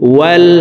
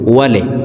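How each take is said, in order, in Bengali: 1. শব্দটি l ধ্বনি দিয়ে শেষ হয়। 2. শব্দটি একটি যোগ করা e স্বরধ্বনি দিয়ে শেষ হয়। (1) "ওয়াও লাম জবর ওয়াল" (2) "এখানে আরেকটি ভুল করি, ওয়ালে বলে থাকি"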